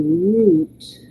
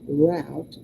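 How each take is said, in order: First: It is said with a British accent, like root. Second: It is said with an American accent, like rout.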